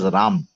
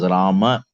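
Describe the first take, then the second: First: The name ends on the 'm' without a vowel. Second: The name ends with a clear final 'a' vowel. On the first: The speaker calls it wrong. "we read it as Ram. Shouldn't do that" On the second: The speaker calls it right. "it is Rama, ma"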